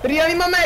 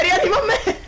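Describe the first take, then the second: First: High, laughing plea; being chased. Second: Higher, laughing cry on "me"; being chased, louder plea. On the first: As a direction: beg for help while laughing. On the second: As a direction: beg harder, still laughing. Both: Real, not acted. Chased by zombies, begging revive.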